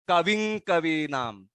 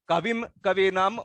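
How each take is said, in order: First: The nasal before k is an ng sound. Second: The nasal before k is a full m sound. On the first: The speaker calls it right. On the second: The speaker calls it wrong.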